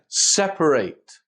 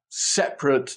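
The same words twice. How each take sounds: First: The last syllable sounds like 'ate'. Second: The last syllable sounds like 'it'. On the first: It is used as a verb. "be pronounced ate" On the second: It is used as an adjective. "we might have separate desks"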